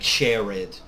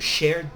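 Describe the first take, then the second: First: The e is pronounced as an extra syllable. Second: The e is silent, one syllable only. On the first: The speaker calls it wrong. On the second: The speaker calls it right.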